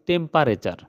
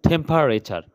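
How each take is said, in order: First: It is said in everyday Bengali-style pronunciation. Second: It is said in careful English-style pronunciation. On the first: The speaker calls it wrong. "তোমরা বা আমরা যেভাবে উচ্চারণ করে থাকি" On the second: The speaker calls it right. "ভালো উচ্চারণ করি তাহলে হবে temperature"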